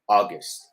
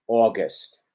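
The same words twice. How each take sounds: First: The first vowel is an open a sound. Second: The first vowel is a closer, rounded sound. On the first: Most people prefer this pronunciation. "Recuerden que es una A que se abre" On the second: Some regions say it this way. "Habrá gente que diga August"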